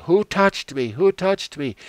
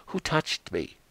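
First: Much higher and louder calling out; Jesus turns around and calls out over the crowd, loud and high; insistent demand. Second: Said in the usual way. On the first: Acted. Jesus insists on finding who touched him.

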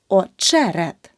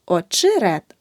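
First: Очерет slowly, with a clear е after ч; correct vowel demo. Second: The mistake in очерет, и for the first е; wrong vowel demo. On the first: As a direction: say очерет as "o-CHE-ret", punching che. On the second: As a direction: say очерет wrongly as "o-chy-ret". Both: Shown as a demonstration. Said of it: "Не очерет".

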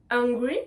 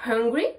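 First: Hungry without h, like angry. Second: Hungry with the h breathed out. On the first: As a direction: begin hungry on the bare vowel. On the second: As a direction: puff of air opening hungry. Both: Shown as a demonstration. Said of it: "pour prononcer la lettre H, je respire".

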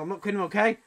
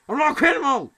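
First: Said in the usual way. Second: Higher-pitched, insistent outburst; indignant, high-pitched protest; exclaimed denial. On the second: Acted. Repeats denial, now exclaimed.

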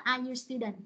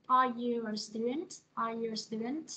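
First: Are you a student said with falling end, the wrong way; falling tune. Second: Are you a student slow, rising at the end; rising tune. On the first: Teacher shows the wrong falling question. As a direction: let the question drop flat at the end. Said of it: "Cô không nói là". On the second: Teacher shows the right rising question. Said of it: "Ha, rồi là". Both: Shown as a demonstration.

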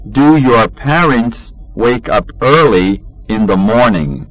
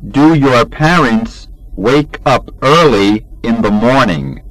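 The two takes are said the same way.

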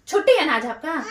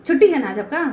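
First: Chuckling through the jab; laughing tease. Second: Louder, bitter jab; sarcastic anger. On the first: Wife teasing husband about his day off, laughing. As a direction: laugh it off while teasing him. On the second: Wife angrily mocking husband about his day off. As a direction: throw his day off back at him. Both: Real, not acted.

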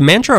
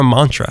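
First: "mantra" with the first A as in "man"; short-A pronunciation. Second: "mantra" with the first A as in "father"; broad-A pronunciation. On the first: Host checks a pronunciation, "mantra" with the A of "man". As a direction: say "mantra" starting like the word "man". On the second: Host offers the alternative pronunciation, "mantra" with an "ah". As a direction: say "mantra" starting with an open "mahn". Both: Shown as a demonstration. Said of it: "Is it mantra or mantra".

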